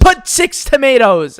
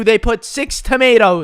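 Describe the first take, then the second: First: Slow, higher demanding "Put six tomatoes"; mock demand. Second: Said in the usual way. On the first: Customer ordering the worker around, mock demanding. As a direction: bark the order with each word pressed. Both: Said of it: "this lady lost it".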